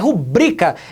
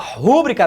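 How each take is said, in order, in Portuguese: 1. A sílaba tônica está na segunda. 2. A sílaba tônica está na primeira. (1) "A sílaba tônica dela é o bri" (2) "Não rola, gente"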